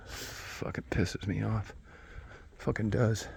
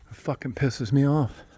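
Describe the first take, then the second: First: Soft, slow, drawn-out grumble; subdued grumble. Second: Higher-pitched irritated complaint. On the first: Man grumbling to himself after calm-mad swings, subdued. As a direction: let it out slowly, much softer. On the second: Man admitting he is not improving much, irritated. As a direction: vent it in a higher voice. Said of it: "I'm pissed". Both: Real, not acted.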